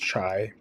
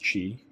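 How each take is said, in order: First: The vowel sounds like the one in 'tie'. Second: The vowel sounds like the one in 'tea'. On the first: The speaker calls it wrong. "some people will say it's chai" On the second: The speaker calls it right. "but it is chi"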